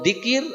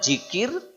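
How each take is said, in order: First: The word begins with a d sound. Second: The word begins with a j sound. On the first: "Kita banyaknya jikir atau dikir" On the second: "Kita banyaknya jikir atau dikir"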